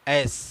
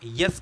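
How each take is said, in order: First: It begins directly with the vowel, no y sound. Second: It begins with a y sound before the vowel. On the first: The speaker calls it right. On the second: The speaker calls it wrong.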